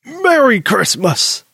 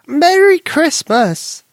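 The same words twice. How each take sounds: First: Slow, drawn-out grandfather call; Granddaddy calling out. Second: High, slow, loud granny voice; excited Granny greeting. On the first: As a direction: call it out from the kitchen. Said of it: "Granddaddy hollowed out". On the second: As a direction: sing out a warm welcome. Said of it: "Granny exclaimed". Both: Acted.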